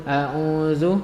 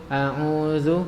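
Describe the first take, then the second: No difference in how they are said.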